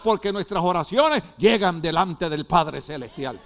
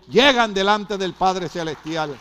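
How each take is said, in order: First: Said in the usual way. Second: "Llegan delante del Padre Celestial" said slowly, each word leaned on; slow down and press "Llegan" hard; slow, weighty repeat. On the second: Shown as a demonstration. Preacher repeats the line to the church, slow and weighty. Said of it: "repeated for emphasis".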